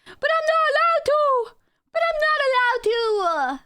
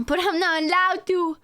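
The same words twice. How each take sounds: First: Squeaky, whining, much higher and louder; whiny high voice. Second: Said in the usual way. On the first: Pretend. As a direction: whine it like a sulky kid.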